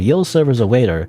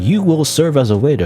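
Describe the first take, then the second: First: "You will" is contracted into one syllable. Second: "You will" is said as two full words. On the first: The speech is casual. "That's more casual" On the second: The speech is formal. "you will is more formal"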